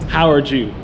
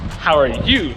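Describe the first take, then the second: First: The last word begins with a J sound. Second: The last word begins with a Y sound. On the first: The speaker calls it wrong. "the first thing you said was" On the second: The speaker calls it right. "the J is pronounced like a Y"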